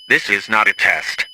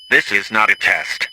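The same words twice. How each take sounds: The two takes are said the same way.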